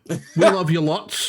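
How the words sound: It is said in a put-on Australian accent.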